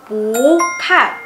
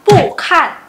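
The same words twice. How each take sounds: First: Long rising "pu", then falling "kan"; "pu" becomes second tone. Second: "pu" and "kan" both falling; unchanged fourth tone. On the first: Teacher correcting 'not see', "pu" slowly rising. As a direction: stretch "pu" upward, pause, drop "kan". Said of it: "tapi jadi". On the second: Teacher showing the reading to avoid, two sharp falls. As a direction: snap "pu" down hard, then "kan". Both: Shown as a demonstration.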